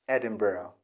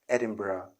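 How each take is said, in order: Both takes have the same delivery.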